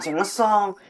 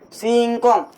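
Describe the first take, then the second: First: The second syllable begins with an s sound. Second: The second syllable begins with a k sound. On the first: The speaker calls it wrong. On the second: The speaker calls it right.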